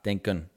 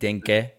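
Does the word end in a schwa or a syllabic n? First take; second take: syllabic n; schwa. First: The word ends in a syllabic n sound. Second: The word ends in a schwa vowel. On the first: The speaker calls it right. "met een erachter" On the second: The speaker calls it wrong. "niet met e erachter. Dus niet denken"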